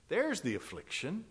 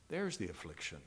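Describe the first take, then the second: First: High, lifted THERE'S, tune rising again at the end; emphatic statement. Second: Low, soft falling "There's the affliction"; subdued repetition. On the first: Preacher points out the affliction to the congregation, emphatic. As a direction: lift "There's the affliction" high and leave it raised. Emphatic repetition, first take. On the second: Preacher lets the affliction settle on the congregation, subdued. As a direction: let "There's the affliction" sink quietly to a close. Same words repeated, sinking. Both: Real, not acted.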